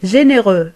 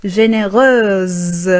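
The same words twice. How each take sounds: First: "Généreux" ending on an open eu vowel; silent final X. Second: "généreuse" ending in a buzzing, held z; slow "généreuse", sound the S as z; final Z sound. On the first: Teacher showing the masculine form, "Généreux" with silent X. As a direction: leave the X of "Généreux" unspoken. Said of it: "ولا ننطقه". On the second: Teacher showing the feminine form, "généreuse" with z ending. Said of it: "وننطق". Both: Shown as a demonstration.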